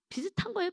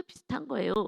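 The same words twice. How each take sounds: First: 거예요 lifted high; high emphasis. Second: Said in the usual way. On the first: Shown as a demonstration. Preacher stressing to the congregation, pitched high. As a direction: say 비슷한 거예요 up high, pointed.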